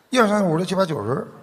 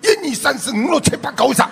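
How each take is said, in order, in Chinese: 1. 这组数字是北京口音。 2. 这组数字是广东口音。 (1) "北京人说话呢，他嘴唇呢、啊、嘴唇不动的啊，牙齿动，在里边滚，舌头在滚" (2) "广东人讲话呢，他一个字一个字他盯住你的，每个字都很有力"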